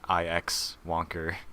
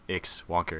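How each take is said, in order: First: The start is said as two spelled letters. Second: The start is said as one syllable. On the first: The speaker calls it wrong. "it's not I X Wonker" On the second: The speaker calls it right. "it's just Ix Wonker"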